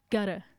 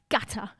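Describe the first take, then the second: First: Said in the usual way. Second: "Gutter" in a crisp English accent. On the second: Real, not acted. Radio host catching herself on a track title, English accent. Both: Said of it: "said that in an English accent".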